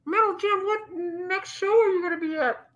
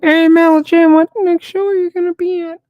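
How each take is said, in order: First: High-pitched muffled question. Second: Very loud, high voice up close to the mic; into the microphone. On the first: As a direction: ask it high, as if through a covered mouth. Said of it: "You muffled". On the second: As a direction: blast the question straight into the microphone. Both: Pretend.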